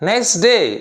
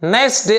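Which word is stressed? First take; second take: day; nice. First: The stress falls on the second word. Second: The stress falls on the first word. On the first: The speaker calls it right. "the noun is stressed" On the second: The speaker calls it wrong. "అంతేగాని nice డే అనకూడదు"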